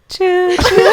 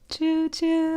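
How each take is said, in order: First: It is said more loudly. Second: It is said more softly.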